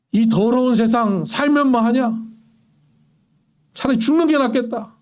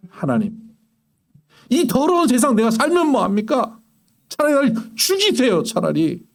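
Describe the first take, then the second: First: Despairing grumble. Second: Pleading cry, rising high on the plea to die; despairing prayer. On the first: A despairing man grumbling to no one about his life, bitter sigh. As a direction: grumble it like someone tired of living. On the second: Preacher voicing a desperate believer crying out to God, anguished plea. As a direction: beg God in anguish, voice climbing. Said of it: "이런 이야기를 하나님 앞에 하는 게 기도라고요". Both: Retold or imitated.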